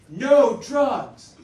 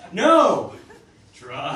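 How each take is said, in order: First: It is said as one unbroken phrase. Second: There is a break after the first word. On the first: Drugs are forbidden. "what they're trying to say here is" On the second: Drugs are being suggested. "when you put the exclamation point here, it sort of changes the meaning a little bit"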